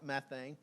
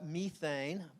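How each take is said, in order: First: It is said the American way. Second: It is said the British way.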